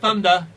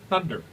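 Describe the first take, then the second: First: The final R is dropped, East Coast style. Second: The final R is clearly pronounced. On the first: The speaker calls it wrong. "not Thunder" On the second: The speaker calls it right. "I remember to pronounce my R's"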